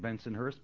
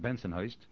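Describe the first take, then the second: First: It is said in a plain, general pronunciation. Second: It is said with a local Brooklyn pronunciation.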